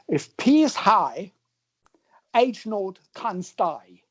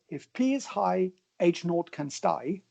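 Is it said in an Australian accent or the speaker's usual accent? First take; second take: Australian; usual. First: It is said in a put-on Australian accent. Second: It is said in the speaker's usual accent.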